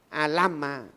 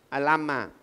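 No difference in how they are said.

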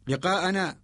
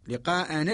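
Both takes have the same delivery.

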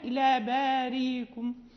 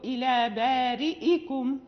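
First: The glottal stop is weakened and slurred. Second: The glottal stop is clearly pronounced. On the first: The speaker calls it wrong. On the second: The speaker calls it right.

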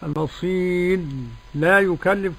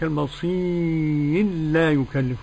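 First: The r is pronounced separately before the l. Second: The r merges into a single doubled l. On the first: The speaker calls it wrong. "ما عملش لا إيه المصير لا يكلف كما يقرأ هؤلاء، لا" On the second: The speaker calls it right. "لا نسى إدغام السوشي"

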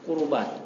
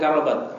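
First: The first vowel is a 'u' sound. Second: The first vowel is an 'a' sound. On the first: The speaker calls it right. "apa yang benar? Kurubat" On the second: The speaker calls it wrong. "Tadi bukan karobat"

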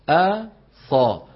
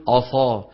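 First: The opening glottal stop sounds light and thin. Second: The opening glottal stop sounds heavy and emphatic. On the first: The speaker calls it right. "شو لازم نقول؟ أصا" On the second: The speaker calls it wrong. "فما بصح نقول أصا"

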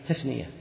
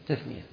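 The two takes are said the same way.

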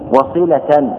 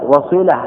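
First: The word ends with the accusative ending 'tan'. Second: The word ends in a pausal form without vowel. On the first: The word is read as a circumstantial accusative. "بالنصب على أنه حال" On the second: The word is read with a stop at the end. "لكن بالوقف على السكون"

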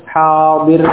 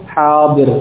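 Both takes have the same delivery.

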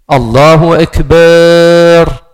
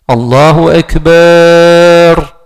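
No difference in how they are said.

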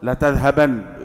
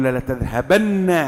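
First: The final n is short and single. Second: The final n is doubled and held. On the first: The speaker insists on the order. "تؤكد وأنك مصر تقول له لا تذهبن بمؤكدين" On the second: The speaker insists on the order even more strongly. "وأردت أن تؤكد المؤكد فقل لا تذهبن"

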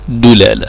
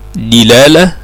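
First: The first vowel is u, as in dulala. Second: The first vowel is i, as in dilala. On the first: "ثم الضم" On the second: "يليه الكسر"

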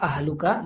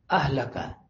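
First: The vowel before -ka is 'u'. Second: The vowel before -ka is 'a'. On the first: She is your wife. "Kalau dibaca rofa' ahluka" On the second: Keep hold of your wife. "diriatkan dengan bentuk nasab"

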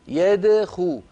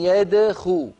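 Both takes have the same delivery.

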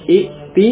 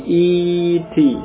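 First: A glottal stop follows the first vowel. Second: A long i replaces the glottal stop. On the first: This is the original form of the word. "Dari i'ti" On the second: This is the changed, softened form of the word. "menjadi i'ti. Jadi hamzahnya diubah menjadi huruf ya"

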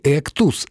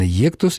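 First: The word begins with a plain 'e' sound. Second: The word begins with a 'ye' sound. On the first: "Не «эктус»" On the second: "а именно «ектус»"

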